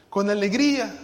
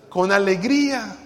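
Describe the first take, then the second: No difference in how they are said.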